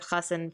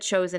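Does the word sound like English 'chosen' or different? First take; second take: different; chosen. First: The word does not sound like English 'chosen'. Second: The word sounds like English 'chosen'. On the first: The speaker calls it right. "instead of chassin for groom" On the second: The speaker calls it wrong. "she said chosen instead of chassin for groom"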